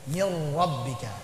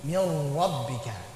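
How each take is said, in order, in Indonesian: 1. Getaran r-nya ringan dan lembut. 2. Getaran r-nya ringan dan lembut.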